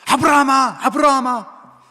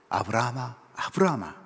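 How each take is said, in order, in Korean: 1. 그 이름은 빠르고 다급하게 불립니다. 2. 그 이름은 천천히, 침착하게 불립니다. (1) "실제 상황에서는 아주 다급한 목소리였을 겁니다" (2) "저는 천천히 이야기를 했지만"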